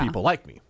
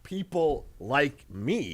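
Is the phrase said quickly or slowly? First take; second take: quickly; slowly. First: The phrase is said quickly, run together. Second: The phrase is said slowly, words drawn apart. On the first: The speaker is a confident person whom people like. The speaker calls it right. "You gotta say it quick" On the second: The speaker likes people who are like him. The speaker calls it wrong. "it's not people like me"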